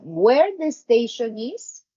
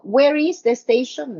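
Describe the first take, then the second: First: Slow, with "is" moved to the end; no inversion. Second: Said in the usual way. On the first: Shown as a demonstration. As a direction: place "is" last, slowly. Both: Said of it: "No, no inversion".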